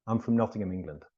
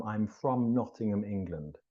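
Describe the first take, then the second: First: "I'm from" quick and reduced, "um-frm"; weak from. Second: "from" given a full, stressed vowel. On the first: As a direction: glide through "from" to land on "Nottingham". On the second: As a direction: sound out "I'm from" carefully, stressing "from". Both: Shown as a demonstration. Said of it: "we don't typically say from".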